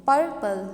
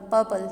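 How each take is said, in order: First: purple split up, loud PUR then a lighter pul; stress on first syllable. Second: purple run together, quick loud first syllable; stress on first syllable. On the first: Teacher demonstrating stress to students, first syllable of purple stressed. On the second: Teacher repeating the example whole, first syllable of purple stressed. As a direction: say purple as one short word, front-stressed. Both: Shown as a demonstration. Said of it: "stress first one पे आया".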